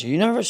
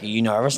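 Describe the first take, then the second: First: High, swooping mock-nervous question. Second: Said in the usual way. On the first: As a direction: throw the question back high, acting jittery. Acting his nervous question back to girl.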